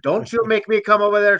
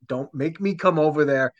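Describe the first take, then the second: First: It is said in Sir Harold's put-on voice. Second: It is said in the speaker's ordinary voice.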